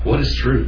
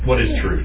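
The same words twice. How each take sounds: First: It is asked in a sincere, curious tone. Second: It is asked in a dismissive, scoffing tone. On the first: The asker genuinely wants to learn what truth is. "Tell me what truth is. I want to know what truth is" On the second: There is no such thing as truth. "Is it like a dismissive sort of"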